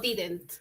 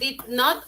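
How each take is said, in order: First: It is said as one contracted word. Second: It is said as two full words. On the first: "De forma corta es didn't" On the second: "es su forma larga"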